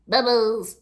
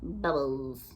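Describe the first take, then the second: First: It is said in an angry voice. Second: It is said in a neutral voice.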